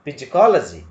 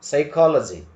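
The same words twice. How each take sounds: First: Psychology with the p sounded; psychology starting with a p sound; wrong pronunciation. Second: Psychology said saikology, silent p; Psychology without the p; correct pronunciation. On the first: (psychology ಅನ್ನು p ಸೇರಿಸಿ ತಪ್ಪಾಗಿ) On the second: (Psychology ಅನ್ನು ಸೈಕಾಲಜಿ ಎಂದು ಹೇಳಿ) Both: Shown as a demonstration. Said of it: "Don't say".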